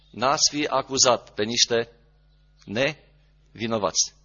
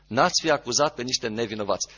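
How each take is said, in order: First: Each word drawn out slowly; slow emphatic. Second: Said in the usual way. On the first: Shown as a demonstration. Preacher to his congregation, slowly stressing each word. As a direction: let the verdict sink in, slowly.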